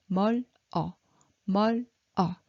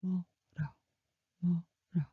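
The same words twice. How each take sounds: First: 멀 어 said as two split syllables; separated syllables. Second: 멀어 softly linked as meo-reo, l flowing onto 어; native linked. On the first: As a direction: pause between 멀 and 어. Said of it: "But Korean native speaker". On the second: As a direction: blend 멀어 like a native speaker. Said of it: "they pronounce it". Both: Shown as a demonstration.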